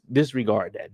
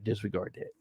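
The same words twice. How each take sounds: First: Said in the usual way. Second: Much softer, taking it back; softly waving off "Disregard that."; hushed correction. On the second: Real, not acted. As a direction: drop the voice to a near-mutter on "Disregard that.". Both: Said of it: "did I say that out loud".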